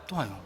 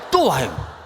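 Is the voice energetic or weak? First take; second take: weak; energetic. First: It is said in a faint, low-energy voice. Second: It is said with normal lively energy. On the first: "밥을 안 먹은 듯한 목소리로" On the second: "또 와요가 아니라"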